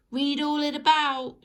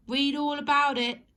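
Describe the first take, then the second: First: Loud, higher street-seller cry; newspaper seller shout. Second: Loud, higher street-seller cry, words in right order; newspaper seller shout. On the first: Paperboy hawking the news to the street, shouted. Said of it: "shouted the newspaper sellers". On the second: Paperboy hawking the news properly, shouted. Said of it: "instead of shouting". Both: Acted.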